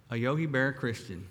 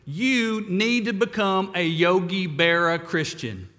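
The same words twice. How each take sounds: First: Said in the usual way. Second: Put-on thick Brooklyn accent, louder and punchy; a Brooklyn pal's blunt Brooklyn accent advice. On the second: Billy telling depressed Ed on the phone, Brooklyn accent. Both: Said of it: "in this thick Brooklyn accent".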